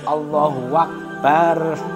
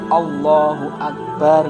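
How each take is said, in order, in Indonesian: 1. Ada bunyi 'w' di antara Allahu dan Akbar. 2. Tidak ada bunyi 'w' di antara Allahu dan Akbar.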